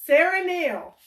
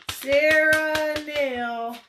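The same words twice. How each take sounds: First: Excited announcement. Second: Slow, high, loud sing-song of the name; proud drawn-out announcement; drawn-out excited call. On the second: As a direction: stretch the name out in celebration. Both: Real, not acted. Announcing the winner.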